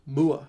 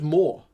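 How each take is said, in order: First: The name ends in a two-part 'oo-ah' vowel. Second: The name is said with one 'or' vowel. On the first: The speaker calls it wrong. "he always says it Mua" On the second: The speaker calls it right. "It's just more"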